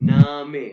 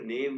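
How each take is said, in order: First: It is said with an 'aa' and final 'e'. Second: It is said like the English word name. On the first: The speaker calls it right. "इसको पढ़ेंगे हम नामे" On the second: The speaker calls it wrong. "इसको नेम नहीं पढ़ना"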